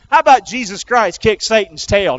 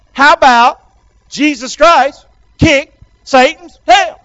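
First: Said in the usual way. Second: Loud, slow, word by word; call for repetition. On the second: Shown as a demonstration. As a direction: lead the crowd, punching each chunk. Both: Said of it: "Can you say that with me?".

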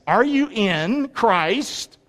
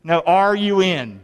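First: "you" stressed with a rising tune, very slow. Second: "are" leaned on, slow; stress on are. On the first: Preacher asking each listener, stress on you. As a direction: drag out "Are you in Christ?", hitting "you". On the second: Preacher pressing the congregation, stress on are. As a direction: press the word "are" in "are you in". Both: Shown as a demonstration.

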